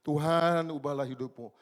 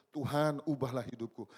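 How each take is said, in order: First: A louder, more insistent cry of Tuhan; repeated plea, louder. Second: A loud earnest plea; pleading prayer. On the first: Preacher repeating the prayer, louder and more insistent. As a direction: push the plea harder on Tuhan. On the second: Preacher retelling his repeated prayer, loud earnest plea. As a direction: beg God to change your life. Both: Retold or imitated. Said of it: "Berulang-ulang saya bilang".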